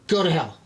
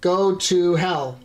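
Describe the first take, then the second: First: The phrase is run together very fast. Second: The phrase is said at a normal pace.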